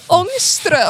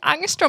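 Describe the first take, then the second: First: The first vowel has the different ringed-A sound. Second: The first vowel is a plain English a sound. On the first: The speaker calls it right. "it's ångström" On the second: The speaker calls it wrong. "it's not actually angstrom"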